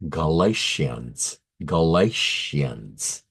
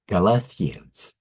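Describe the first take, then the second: First: Galatians as a slow "guh-LAY-shee-uns"; corrected pronunciation. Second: Galatians with a "th" as in Corinthians; mixed-up pronunciation. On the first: Shown as a demonstration. Teacher saying the book name again, slow and careful. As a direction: draw out Galatians with a clear "sh". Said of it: "Let me say that again". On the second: Real, not acted. Teacher muddling two book names, mispronounced. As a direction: say Galatians as "ga-LA-thee-ans". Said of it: "I mixed them up".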